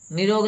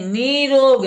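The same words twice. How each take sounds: First: निरोग with a short "i", as "ni-rog"; short first vowel in निरोग; mispronounced निरोग. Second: निरोग as "NEE-rog", high and loud; stressed long "ee" in निरोग; corrected long vowel. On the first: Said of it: "निरोग नहीं". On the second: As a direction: lengthen and punch the "nee" in निरोग. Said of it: "बड़ी ई की मात्रा". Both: Shown as a demonstration.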